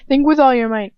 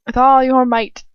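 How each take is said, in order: First: Loud, higher villain taunt, leaning on with; a cruel tormentor pressing his captive. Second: Loud taunting villain, leaning on all; a cruel tormentor pressing his captive. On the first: Same taunt retaken. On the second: Villain taunt, repeated on next take. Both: Acted.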